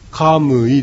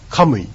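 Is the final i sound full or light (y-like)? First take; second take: full; light. First: The final i is pronounced as a full vowel. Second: The final i is pronounced lightly, like y. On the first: The speaker calls it wrong. "これもカムイではなくて" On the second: The speaker calls it right. "これは軽く発音いたします"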